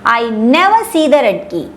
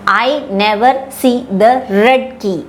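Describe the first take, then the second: First: The word never carries the main stress. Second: The word red carries the main stress. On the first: "I am giving stress to the word called as never" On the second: "which means I saw the key, but the key is not red in color"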